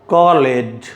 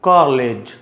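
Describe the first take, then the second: The two takes are said the same way.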